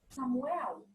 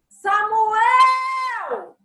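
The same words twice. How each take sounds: First: The name is said softly. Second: The name is called out loudly.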